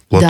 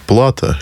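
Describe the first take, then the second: First: The stress is on the last syllable. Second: The stress is on the first syllable. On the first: The speaker calls it right. "же правильно" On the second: The speaker calls it wrong. "А то тоже часто делают ошибку у нас. Как говорят"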